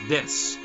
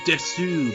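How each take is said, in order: First: The final u vowel is dropped after s. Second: The final u vowel is clearly pronounced. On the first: "whenever I hear it, it's pronounced Des" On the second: "It's like Desu"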